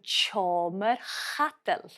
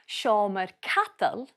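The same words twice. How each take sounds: First: The word begins with a ch sound. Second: The word begins with an sh sound. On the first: "we add a T sound, so sh becomes ch" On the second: "so sh becomes ch"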